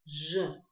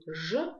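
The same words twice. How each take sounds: First: «Ж» said with rounded lips; «Ж» through a rounded mouth. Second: Said in the usual way. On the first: Shown as a demonstration. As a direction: round the lips while saying «Ж». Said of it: "округляя губы". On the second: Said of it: "образуем этот звук от буквы".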